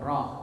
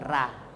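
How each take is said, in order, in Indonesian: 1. R-nya tebal dengan vokal seperti o. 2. R-nya tipis dengan vokal a yang jelas. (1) "tapi ra ... a berubah menjadi o" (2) "bukan ra"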